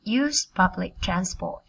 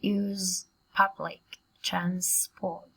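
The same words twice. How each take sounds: First: Words linked into one continuous phrase; faster, joined up. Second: Slow, separated words with gaps. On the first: Teacher has students read quicker, phrase joined up. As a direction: run the phrase together without gaps. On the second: Teacher models a long phrase for students, slowly word by word. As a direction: spell out the phrase one word at a time. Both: Shown as a demonstration. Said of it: "Các bạn đọc nhanh hơn cùng cô nào".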